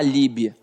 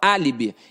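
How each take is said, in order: First: The stress falls on a later syllable. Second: The stress falls on the first syllable. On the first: The speaker calls it wrong. "Ninguém fala alibi" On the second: The speaker calls it right. "a gente fala álibi... está na antepenúltima sílaba"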